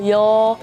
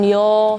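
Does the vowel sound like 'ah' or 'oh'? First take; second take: oh; oh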